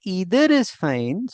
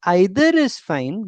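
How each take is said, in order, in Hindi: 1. Either की शुरुआत 'ee' स्वर से होती है, अमेरिकन तरीके से। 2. Either की शुरुआत 'eye' स्वर से होती है, ब्रिटिश तरीके से। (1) "ये अमेरिकन प्रोनाउंसिएशन के अंदर आता है" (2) "आई जो होता है वो ब्रिटिश होता है"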